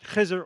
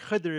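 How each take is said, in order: First: The middle consonant is a z sound. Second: The middle consonant is a d sound. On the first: "important to pronounce it Khizr" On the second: "or Khidr if you like Arabic"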